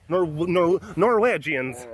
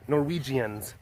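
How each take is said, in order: First: "Norwegians" with a put-on Norwegian vowel, "Nor-WEDGE-ians"; mock Norwegian accent. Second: Said in the usual way. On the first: Shown as a demonstration. Joking about dad's side of the family, mock Norwegian accent. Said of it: "what sort of accent this is".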